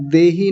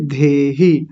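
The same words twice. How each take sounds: First: देहि with a plain d, no breath; unaspirated d. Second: धेहि with a breathy, aspirated dh. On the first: Teacher showing what to avoid, देहि with unaspirated d. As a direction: say देहि without aspirating the d. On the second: Teacher correcting students, धेहि with aspirated dh. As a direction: puff the dh in धेहि, pitched lower. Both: Shown as a demonstration. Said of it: "देहि नहीं".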